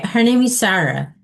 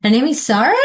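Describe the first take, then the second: First: "Sarah" ends on a falling tone, as a statement; falling intonation. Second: "Sarah" rises at the end, as a question; rising intonation. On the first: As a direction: state it, pitch dropping on "Sarah". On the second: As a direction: ask it, pitch climbing on "Sarah". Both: Shown as a demonstration. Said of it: "Rising and falling".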